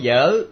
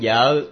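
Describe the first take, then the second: First: The tone dips and then rises. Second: The tone is low and abruptly cut off. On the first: It means notebook. "giờ ơ dơ hỏi vợ" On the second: It means wife. "còn giờ ơ dơ nặng vợ là khác"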